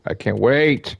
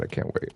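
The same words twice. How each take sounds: First: Said in the usual way. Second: Whisper. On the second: Real, not acted. Whispered repetition.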